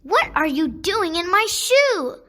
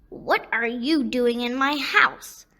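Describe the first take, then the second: First: Screaming at the toad. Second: Little toad screaming back. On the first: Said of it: "Asiya screams at what seems". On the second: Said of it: "the little toad screams back". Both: A narrator's reading.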